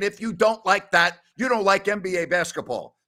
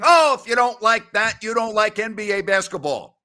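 First: Said in the usual way. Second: A hammed-up play-by-play call, the opening "Oh" louder; imitating a broadcaster hyping a great play; mock TV announcer. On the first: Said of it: "Don't be going on T V and saying". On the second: Mocking an NBA announcer's catchphrase on air, hammed-up call. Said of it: "after a great play saying".

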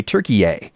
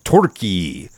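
First: Turkey-yay said as "tur-kee-YAY", anglicized; Turkey-yay with an English ay ending. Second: Turkey said as "Tor-kee-yeh", first vowel like "or", in a lower voice; Turkey with the first vowel rounded like the word or; Türkiye. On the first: Asking Turks if they want Turkey-yay, anglicized. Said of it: "Opinion seems to be coalescing around Turkey-yay". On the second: Showing the Turkish sound, Turkey with an or vowel. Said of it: "the U sound earlier on is more like an or sound". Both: Shown as a demonstration.

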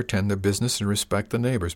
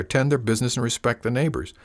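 First: Said in the usual way. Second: "their" pointedly stressed, higher. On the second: Acted. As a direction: lean on "their" in "tend their business". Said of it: "I said folks was willing".

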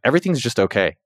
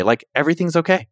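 First: Said in the usual way. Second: Lifted, higher-pitched reassurance; lightly upbeat self-reassurance; okay, not bad. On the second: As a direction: say it as good news, pitched up. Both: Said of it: "Not in a bad okay".

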